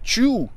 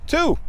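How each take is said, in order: First: The word begins with a 'ch' sound. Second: The word begins with a 't' sound. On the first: The speaker calls it wrong. "A pronúncia não é chew" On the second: The speaker calls it right. "A pronúncia certa"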